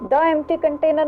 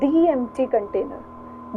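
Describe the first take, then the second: First: 'The' is said with a short 'thuh' vowel. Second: 'The' is said with a long 'thee' vowel. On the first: The speaker calls it wrong. "द empty container नहीं है" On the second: The speaker calls it right.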